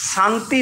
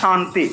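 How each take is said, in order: First: It begins with a dental 's' sound. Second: It begins with a palatal 'sh' sound. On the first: The speaker calls it wrong. "এটা dental স" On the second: The speaker calls it right. "এটা হচ্ছে তালবস্য"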